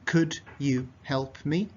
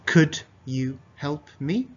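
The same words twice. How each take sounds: No difference in how they are said.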